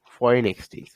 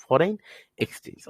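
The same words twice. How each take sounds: First: Said in the usual way. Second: foreign on a rise, pause, then a whispered exchange; split into parts. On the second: Shown as a demonstration. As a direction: break foreign and exchange apart for teaching. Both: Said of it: "For বলতে আমরা বুঝি foreign".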